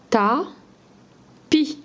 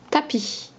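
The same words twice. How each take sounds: First: "Ta, pi" as two isolated syllables with a long pause; split into syllables. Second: Said in the usual way. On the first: Shown as a demonstration. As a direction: sound out "Ta, pi" one syllable at a time. (« Ta, pi » découpé, syllabe par syllabe) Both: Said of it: "On retient que la deuxième syllabe".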